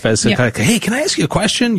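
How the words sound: The voice sounds bright and excited. The question is harmless and friendly. "if you sound excited, then they probably wouldn't scare you"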